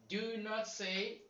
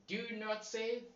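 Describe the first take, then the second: No difference in how they are said.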